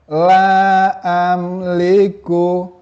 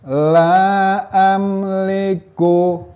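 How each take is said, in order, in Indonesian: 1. Vokal itu dibaca singkat, dua harakat. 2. Vokal itu dibaca singkat, dua harakat.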